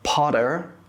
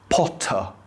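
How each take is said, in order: First: The final R is pronounced. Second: The final R is dropped. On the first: "instead of" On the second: "we usually don't pronounce the R"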